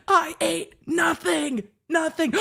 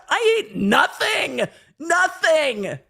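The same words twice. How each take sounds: First: High, slow mock shout of I ate nothing; goat-scream imitation. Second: High, slow mock shout of I ate nothing; hangry shout. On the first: Reenacting the hungry girl's scream for chat, high mock shout. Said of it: "Swoop with a goat scream at the end". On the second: A girl in the car yells at friends who filmed her, high shouted imitation. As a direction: wail it like a starving girl snapping at her friends. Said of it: "She's like".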